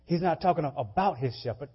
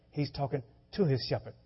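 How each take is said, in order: First: About leaned on firmly; about gets the weight; stress on about. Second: To falls firmly, set against about; to gets the weight; stress on to. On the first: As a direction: hit the word about. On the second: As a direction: lean on the word to. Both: Shown as a demonstration.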